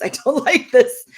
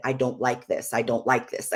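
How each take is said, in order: First: Breaking into a laugh on "I don't like this", higher and louder. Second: Said in the usual way. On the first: Retold or imitated. Wife laughing at her own repeated complaint to husband, laughing. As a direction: laugh through the third repeat.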